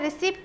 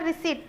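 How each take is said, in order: First: The p sound before the final t is pronounced. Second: The p sound before the final t is silent. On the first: The speaker calls it wrong. "रिसिप्ट नहीं है" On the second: The speaker calls it right. "वो क्या है आपका रिसीट"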